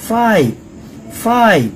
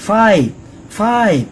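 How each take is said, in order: No difference in how they are said.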